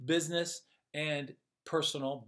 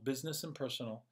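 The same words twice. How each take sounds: First: Said in the usual way. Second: "business and personal" repeated quick and much softer; quick, quiet echo; soft fast echo. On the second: Shown as a demonstration. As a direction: let it fade as an echo. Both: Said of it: "said twice, second fading".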